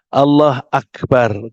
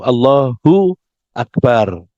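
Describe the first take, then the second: First: The u ending after Allah is dropped. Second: The u ending after Allah is kept. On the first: The speaker calls it wrong. "kalau ada orang menyederhanakan Allah akbar" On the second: The speaker calls it right. "Kalau subjek itu dibaca u"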